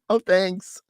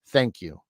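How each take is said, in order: First: It is said in a changed, put-on voice. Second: It is said in his natural, sincere voice.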